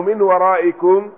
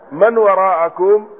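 First: "من ورائكم" read min waraa'ikum, with an i after the mim; kasra on mim. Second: "من وراءكم" read man waraa'akum, with an a after the mim; fatha on mim. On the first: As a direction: say "من" as min and "ورائكم" with hamza plus i. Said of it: "يعني في ذلك روايتين". ("من ورائكم" بكسر الميم والهمزة) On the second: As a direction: say "من" as man and "وراءكم" with hamza plus a. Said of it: "في روايته". ("من وراءكم" بفتح الميم والهمزة) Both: Shown as a demonstration.

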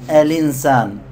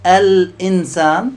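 First: الإنسان run together as alinsan, falling end; dropped hamza. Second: الإنسان split as al-'insan, loud and slow; full hamza. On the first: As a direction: let the l glide into the i, no glottal stop. (الإنسان بالنقل وحذف الهمزة) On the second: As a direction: glottal stop after the l in الإنسان, rising end. (الإنسان بتحقيق الهمزة) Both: Shown as a demonstration. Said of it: "هذا قراءة ورش نسميه نقل".

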